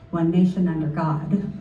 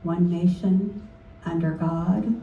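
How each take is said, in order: First: There is no pause after "nation". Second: There is a pause after "nation".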